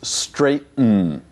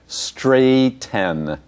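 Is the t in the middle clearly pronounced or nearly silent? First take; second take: nearly silent; clearly pronounced. First: The t before the ending is nearly silent. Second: The t before the ending is clearly pronounced. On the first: The speaker calls it right. "It's straighten" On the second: The speaker calls it wrong. "So many students expect straighten"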